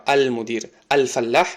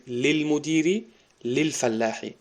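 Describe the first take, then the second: First: "المدیر، الفلاح" with the opening "al" sounded; full article "al". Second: "للمدیری، للفلاحی" run together as lil-, no "al"; "للمدیری، للفلاحی" linked, alif left silent; silent alif, joined. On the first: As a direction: voice the alif at the start of "المدیر" and "الفلاح". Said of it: "یک کلمه الف لام داره". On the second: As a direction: drop the hamza, glide from li into l in "للمدیری، للفلاحی". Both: Shown as a demonstration.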